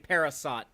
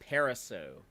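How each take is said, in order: First: The name ends with a clear T sound. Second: The name ends without a T sound. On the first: The speaker calls it wrong. "Don't don't say parasot, y'all. That's wrong" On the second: The speaker calls it right. "It's a silent T on the end"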